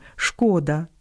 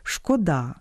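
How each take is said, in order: First: ШКО́да, first syllable stressed. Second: ШкодА́, only the final syllable stressed; stress on last syllable. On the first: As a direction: say шкода stressing ШКО. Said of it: "наголошуємо на першому складі". (наголос на першому складі: шко́да) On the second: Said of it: "тільки на останньому складі". (наголос на останньому складі: шкода́) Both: Shown as a demonstration.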